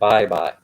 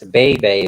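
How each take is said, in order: First: The vowels sound like 'bye'. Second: The vowels sound like 'bay'. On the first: It is how the local people say the name. "but they pronounce it Bye Bye" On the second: It follows the written form of the name. "That's Bay Bay"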